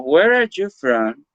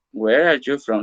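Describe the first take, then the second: First: "Where are you from?" said slowly, with a lift on "are"; slow model question. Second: Said in the usual way. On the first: Shown as a demonstration. Teacher shows students the open question, slow and lifted. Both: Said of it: "pero si utilizamos".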